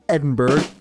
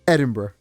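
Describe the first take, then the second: First: Every syllable is pronounced with careful effort. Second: The syllables are reduced and run together loosely. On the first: The speaker calls it wrong. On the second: The speaker calls it right.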